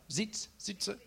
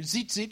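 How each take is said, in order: First: Zitza said with a final ah, the wrong way; zitza, tried and not quite right; mispronounced zitzit. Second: Zitzit said clearly as zit-zit, ending in a crisp t; zitzit, said right at last; corrected word. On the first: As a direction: stumble over zitza, ending it in ah. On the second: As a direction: land zitzit cleanly, stress on the first zit. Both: Shown as a demonstration. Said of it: "get it right".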